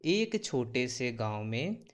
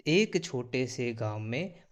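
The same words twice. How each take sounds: The two takes are said the same way.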